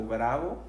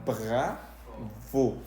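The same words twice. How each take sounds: First: Said in the usual way. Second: "bravo" slowly, in two split syllables, French R; French pronunciation. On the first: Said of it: "no significa enojado o bravo". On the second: Shown as a demonstration. Teacher modelling it for learners, slow French "bravo". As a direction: stretch "bravo" into French bra... vo. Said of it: "en este caso se leería".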